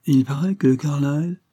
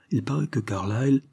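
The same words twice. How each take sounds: First: «Il paraît que Carlyle» higher, lifted on «paraît»; impatient prompting echo. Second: «Il paraît que Carlyle» begun evenly, left hanging unfinished; news left hanging. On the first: Daughter prompts her father to finish, «Il paraît que Carlyle» raised impatiently. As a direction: repeat «Il paraît que Carlyle» expectantly, pitched up, rising. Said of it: "tourmentée du désir de connaître la suite". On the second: Judge begins his news to Barbara, «Il paraît que Carlyle» left unfinished. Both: A narrator's reading.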